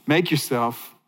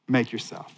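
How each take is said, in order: First: "Make" weighted at the start of "Make yourself"; "Make" marked as the key verb; stress on make. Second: Quiet, low "make yourself" with make leaned on; "make" set apart and weighted; stress on make. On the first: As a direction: lean on "Make", then let "yourself" fall. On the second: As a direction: press gently on "make". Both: Shown as a demonstration. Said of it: "The key is in the verb".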